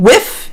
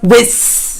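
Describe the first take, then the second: First: The th is replaced by a nearby easy sound. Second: The th is forced in a strained German-accented way. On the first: The speaker calls it right. "try a letter that is close enough to what you need" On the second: The speaker calls it wrong. "the brute forcing of the attempt of actually pronouncing the th"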